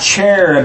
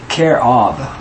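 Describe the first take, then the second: First: The word starts with a ch sound. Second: The word starts with a k sound. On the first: The speaker calls it wrong. "so it's not cherub" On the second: The speaker calls it right. "it's really kerob"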